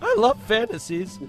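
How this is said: It imitates the Simpsons teenage kid's voice.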